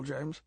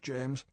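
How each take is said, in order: First: Cheerful. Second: Severe. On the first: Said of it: "He said cheerfully". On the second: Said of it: "M said severely". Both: A narrator's reading.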